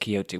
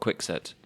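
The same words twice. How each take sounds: First: The middle consonant is a breathy h sound. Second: The middle consonant is a ks sound. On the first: "the Spanish adopted it as Quixote with an H and now a J" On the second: "English people saying Don Quixote because we say quixotic"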